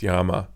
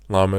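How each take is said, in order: First: It is said with a Spanish pronunciation. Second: It is said with an English pronunciation.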